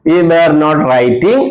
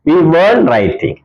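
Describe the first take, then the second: First: Were and not are said as two full words. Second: Were and not are joined into one short word.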